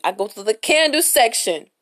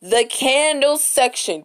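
First: Said in the usual way. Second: "candle section" drawn out slowly, higher; emphatic repeat. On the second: Real, not acted. Storyteller repeating where she went, "candle section" slow and emphatic. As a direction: stretch out "candle section" at half speed, pitched up.

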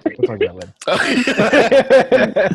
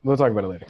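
First: High, slow, laughing mock voice; mock sing-song voice. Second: Said in the usual way. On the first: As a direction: stretch it out high and teasing. Repeated in a put-on voice.

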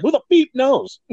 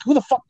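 First: High mock clown voice saying "beep" instead of the swear. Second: High mock clown voice, swear left in; cussing clown. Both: Clown answers why it beeps, high mocking voice. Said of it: "And he's like".

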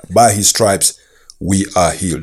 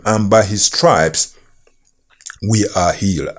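First: Said in the usual way. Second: Whispered scripture. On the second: Acted. Scripture read, key phrase hushed.

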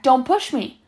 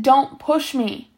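First: Quick, mildly sharp warning; lightly voiced threat. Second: "don't push me" slowed right down, each word weighted; slow, higher, deliberate "don't push me"; emphatic repeated warning. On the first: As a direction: warn him off briefly. First warning after a shove. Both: A narrator's reading.

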